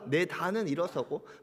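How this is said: It is read in a calm, polite tone. "그냥 정중하게 읽어서 그렇죠"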